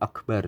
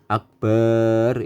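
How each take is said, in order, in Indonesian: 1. Vokal setelah b dibaca pendek. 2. Vokal setelah b dibaca panjang. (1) "Jadi harus pas Allahu Akbar begitu" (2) "memanjangkan ba pada lafadz akbar tidak diperbolehkan"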